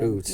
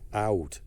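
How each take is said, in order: First: It is said with an 'oo' vowel. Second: It is said with an 'ow' vowel.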